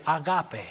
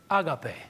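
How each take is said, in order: First: "agape" said the Spanish way, stress on the middle syllable; Spanish-style "agape" with a stressed GAH; Spanish pronunciation. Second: Said in the usual way. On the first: Shown as a demonstration. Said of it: "And in Spanish, we say". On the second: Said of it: "in the Greek is found to be the word".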